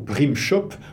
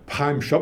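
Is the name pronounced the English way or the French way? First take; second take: French; English. First: The name is pronounced with French sounds. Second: The name is pronounced with English sounds.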